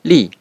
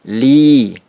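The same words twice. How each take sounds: First: The vowel is short, one beat. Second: The vowel is held long, two beats. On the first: The speaker calls it wrong. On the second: The speaker calls it right. "dibaca panjang dua ketukan"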